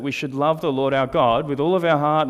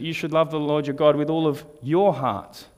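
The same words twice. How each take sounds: First: Said in the usual way. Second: YOUR set apart and emphasized before "heart"; stress on YOUR. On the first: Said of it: "when you place emphasis on certain words". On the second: Shown as a demonstration. Preacher showing a congregation the overlooked word, stress on YOUR. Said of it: "I'd never placed the emphasis on the word".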